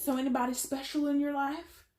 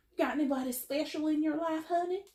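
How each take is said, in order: First: Put-on light southern accent, pitched up. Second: Put-on high, broad southern accent. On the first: Religious family asking about your love life, southern accent. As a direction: ask nosily in a higher southern voice. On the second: Religious family prying into your love life, thick southern accent. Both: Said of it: "I put on this southern accent".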